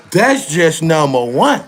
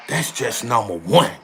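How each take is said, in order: First: "That's just number one" drawn out slow and forceful; emphatic repeat. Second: Said in the usual way. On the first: Real, not acted. Streamer counting off Trump's deeds for viewers, "That's just number one" slow and emphatic.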